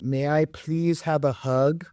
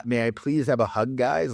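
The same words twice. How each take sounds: First: Slow, higher, timid little plea; meek nice guy. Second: Lightly voiced meek guy, mocking; mocking timid voice. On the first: Retold or imitated. Nice guy at her door begging for a hug, meek and slow. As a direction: ask like a nervous, ineffectual guy at the door. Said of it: "he goes". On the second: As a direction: parody the pleading ask.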